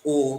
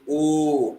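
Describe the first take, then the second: First: The vowel is held briefly. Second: The vowel is held out longer. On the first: "And not just" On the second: "but you say"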